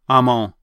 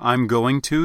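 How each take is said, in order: First: 'Going to' is reduced to 'on'. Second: 'Going to' is said in full. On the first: "you'll tend to say I'm on" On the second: "Instead of I'm going to"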